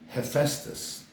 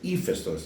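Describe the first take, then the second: First: The name is said with an English pronunciation. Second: The name is said with a Greek pronunciation. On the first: The speaker calls it wrong. "they look at me like, "Who are you talking about?"" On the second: The speaker calls it right. "the proper pronunciation is Hephaestus"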